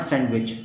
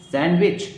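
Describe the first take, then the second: First: सैंडविच with the d sounded, sand-wich; wrong sandwich. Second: सैंडविच said sanwich without the d; correct sandwich. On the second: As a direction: drop the d in सैंडविच. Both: Shown as a demonstration. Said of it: "not सैंडविच".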